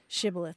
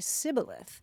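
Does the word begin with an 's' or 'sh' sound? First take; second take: sh; s. First: The word begins with a 'sh' sound. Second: The word begins with an 's' sound. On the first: The speaker calls it right. "the Ephraimites couldn't say" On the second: The speaker calls it wrong. "They would say sibboleth"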